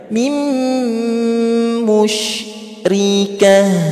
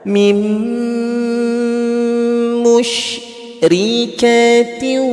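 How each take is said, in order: First: The word ends with an h sound. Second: The word ends with -atin. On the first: The reader stops after this word. "kalau mau berhenti... jadi bacanya mim musyrikah" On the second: The reader continues into the next word. "kalau dilanjut maka dibaca"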